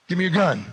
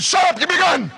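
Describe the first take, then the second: First: High, firm order; angry demand. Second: Very high, loud yell; furious shouted order. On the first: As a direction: demand it, holding back the shout. First demand for the gun. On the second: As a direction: explode at the friend's objection. Shouts demand after friend objects. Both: Acted.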